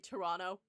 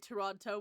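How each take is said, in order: First: The second T is dropped entirely. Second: The second T is clearly pronounced. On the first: "we say Toronto. There's no there's no seconds T in there" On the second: "Canadians don't say Toronto"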